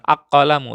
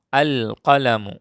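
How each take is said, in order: First: The l merges into the following consonant. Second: The l of the article is clearly pronounced. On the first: The speaker calls it wrong. "bukan ak-qalamu" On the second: The speaker calls it right. "Ini dibaca al"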